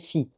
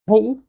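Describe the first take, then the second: First: It begins with an f sound. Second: It begins with a breathy p sound. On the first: The speaker calls it wrong. "Jamais Phi, comme en grec moderne" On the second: The speaker calls it right. "ça s'applique avec le H, le P. Donc P et H"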